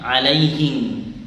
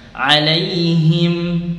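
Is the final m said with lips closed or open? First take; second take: open; closed. First: The final m is said without closing the lips. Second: The final m is said with closed lips. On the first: The speaker calls it wrong. "karena kalau tidak rapat nanti bunyinya 'alaihim" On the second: The speaker calls it right. "mim ketika sukun maka bibirnya dirapatkan biar sempurna penyebutannya"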